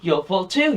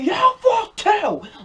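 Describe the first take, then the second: First: It is said fairly quietly. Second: It is said loudly.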